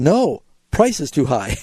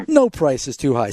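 First: 「No,」で区切って; pause after no. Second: 「No price」を続けて; no pause after no. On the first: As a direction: say No, then a break before price. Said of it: "he was saying". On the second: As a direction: run No price together. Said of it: "instead of saying". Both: Shown as a demonstration.

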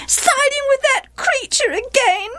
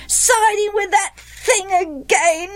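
First: Very high, aggrieved wail. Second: Put-on slow, high childish echo; chorusing boys. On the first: Wife accuses Gilead of siding with Jephthah, wailing. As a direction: wail in high-pitched reproach. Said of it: "wailed Gilead's wife". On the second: Boys echo mother's complaint to father, chorusing. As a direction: parrot the complaint in a high pitch. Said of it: "the other boys chorused". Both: A narrator's reading.

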